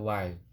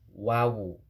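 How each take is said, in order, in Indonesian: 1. Nama huruf itu terdiri dari satu suku kata. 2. Nama huruf itu terdiri dari dua suku kata. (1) "jangan wai"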